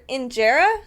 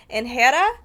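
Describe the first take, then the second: First: Injera said as in-JEH-ra, with a j sound; corrected pronunciation. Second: Injera said as in-HEH-da, with a breathy h; first wrong try. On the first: Vlogger correcting herself on the Ethiopian bread name, injera with a j. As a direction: injera with a clear j and r. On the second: Vlogger misreading an Ethiopian bread name aloud, breathy h in injera. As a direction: injera with an h sound in the middle. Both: Real, not acted.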